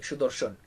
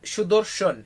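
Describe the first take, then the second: First: ഷുദോർഷൻ repeated softer and lower as a quick echo; quiet recap of ഷുദോർഷൻ with sh sounds and a falling end; softly repeating ഷുദോർഷൻ after the slow model; Bengali pronunciation. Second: ഷുദോർഷൻ spoken slowly, syllable by syllable, with sh sounds; slow teacher demo of ഷുദോർഷൻ, falling at the end; teaching the Bengali word ഷുദോർഷൻ slowly to Malayalam learners; Bengali pronunciation. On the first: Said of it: "ഷുദോർഷൻ എന്നാണ്". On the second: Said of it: "വേറെ വാക്കാണ് അത്". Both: Shown as a demonstration.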